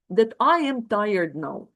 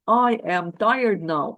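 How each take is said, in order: First: Said in the usual way. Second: "I am tired now" said slowly, each word weighted; firm, drawn-out insistence on "I am tired now"; slow emphatic repeat. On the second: Shown as a demonstration. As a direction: lean on "tired" and slow right down.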